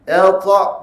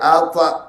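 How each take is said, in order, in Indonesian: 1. Bunyinya berat dan meninggi. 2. Bunyinya ringan dan merendah. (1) "Bunyi dia bunyi meninggi" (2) "jangan dibaca ... dia bunyi merendahkan"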